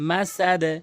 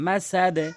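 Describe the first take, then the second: The two takes are said the same way.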